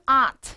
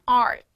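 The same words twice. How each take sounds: First: It is said in a British accent. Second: It is said in an American accent. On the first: "영국 발음" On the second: "미국 발음"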